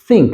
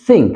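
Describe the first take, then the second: Both takes have the same delivery.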